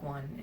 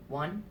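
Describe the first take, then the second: First: Said in the usual way. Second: "One" echoed as a doubtful question. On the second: Retold or imitated. Ticket girl checking she wants one ticket, "One" as a questioning echo. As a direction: repeat "One" back with a questioning lift.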